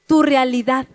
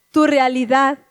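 The two takes are said the same way.

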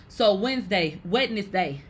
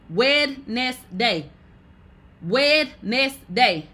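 First: Said in the usual way. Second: Wednesday spelled out slowly as Wed-nes-day, every letter said; sounded out. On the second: Shown as a demonstration. To chat, teaching how to spell it: sounding out Wed-nes-day slowly. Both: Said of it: "learn how to spell things by literally sounding it out".

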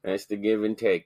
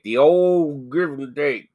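First: Said in the usual way. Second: Put-on OLD stretched out long and loud; loud, slow mock-folksy repeat of the phrase; hammed-up catchphrase. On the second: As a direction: drawl "old", then slur through "give and take".

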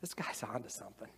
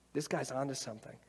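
First: Softer, awed murmur to oneself; quiet realization. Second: Brisker, convinced repeat; quicker affirmation. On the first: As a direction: hush it like a discovery. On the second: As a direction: pick it up and nod along. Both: Retold or imitated. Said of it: "you're like".

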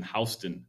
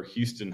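First: Houston said "HOUSE-tun"; Georgia pronunciation. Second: Said in the usual way. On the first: Shown as a demonstration. Host showing how Georgians say it, Houston as "HOUSE-tun". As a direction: say Houston with "house" as first syllable. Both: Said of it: "how they pronounce".

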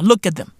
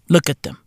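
First: Said in the usual way. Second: Unvoiced whispered repeat; conspiratorial whisper. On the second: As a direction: hush it down.

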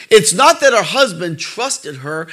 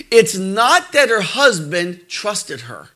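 First: Slow, rising hit on "not"; stress on not. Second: Slow, weighted on "that"; stress on that. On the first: Preacher repeating the point, "not" leaned on with a rise. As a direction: push "not", slow, ending up. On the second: Preacher correcting a reading, slow with "that" stressed. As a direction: lean on "that", slow and deliberate. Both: Shown as a demonstration.

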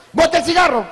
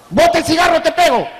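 First: Firm scolding order, a bit higher; stern order. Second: Higher, louder furious yell; angry shout. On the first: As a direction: tell the kid off firmly. Neighbor scolds teen smoker. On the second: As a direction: bellow the threat at the kid. Neighbor threatens teen smoker. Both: Acted.

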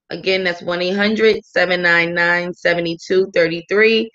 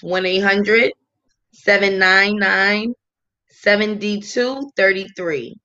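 First: Said in the usual way. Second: Slow, pausing between digit groups; dictating a number. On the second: Real, not acted. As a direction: give the hotline number in separate, measured chunks. Dictating hotline number to listeners.

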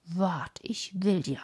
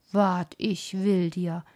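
First: "Wart, ich will dir" said softly and falling, without force; the teacher repeats it half to himself, deflated; quiet muttered threat. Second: Put-on a startled teacher threatening the girl, drawn out; surprised threatening shout. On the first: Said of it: "dann sagte er noch einmal". (leise, resignierte Wiederholung der Drohung) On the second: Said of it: "rief jetzt der Schullehrer in großer Überraschung". (der überraschte Lehrer droht laut und langsam: „Wart, ich will dir“) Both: A narrator's reading.

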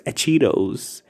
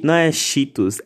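First: Cheetos with a t-ch start, /t͡ʃiɾows/, as if in English; mock right Cheetos. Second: Mocking the plain shitus Cheetos; mock wrong Cheetos. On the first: Imitating the meme girl correcting Cheetos. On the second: Mocking the meme girl, saying Cheetos like a Brazilian. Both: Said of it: "ficou falando de".

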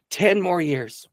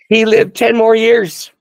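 First: High-pitched but not shouted; marveling repeat. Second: Loud, high, drawn-out proclamation; triumphant exclamation. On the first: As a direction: echo it in wonder at normal volume. Repeats the climax, now less loud. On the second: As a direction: belt out the good news, slowly and jubilantly. Triumphant climax of healing story. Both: Real, not acted.

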